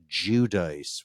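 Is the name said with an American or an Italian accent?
American. The name is said with an American-Italian accent. The speaker calls it wrong.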